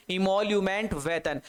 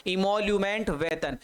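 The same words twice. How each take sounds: The two takes are said the same way.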